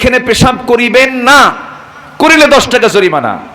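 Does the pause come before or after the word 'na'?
after. The pause comes right after the word 'na'.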